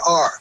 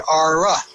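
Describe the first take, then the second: First: The word is said as a single syllable. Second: The word ends with an added uh syllable. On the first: "you pronounce it like it was meant to be pronounced"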